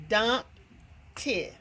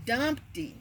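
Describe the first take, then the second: First: "Dumpty" with a long gap between Dump and ty; split into syllables. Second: Said in the usual way. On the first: Shown as a demonstration. Teacher trying the syllable count, "Dumpty" broken in two. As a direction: sound out "Dumpty" as two separate beats. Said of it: "every time you hear a syllable". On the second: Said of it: "Okay, let's try".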